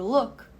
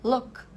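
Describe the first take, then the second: The two takes are said the same way.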